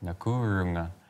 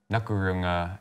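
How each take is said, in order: First: The u vowel is held long. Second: The u vowel is cut short. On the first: It means I'm fine. The speaker calls it right. "You want to make sure you have the long "u."" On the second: It means cross-eyed. The speaker calls it wrong. "if you don't have your long "u""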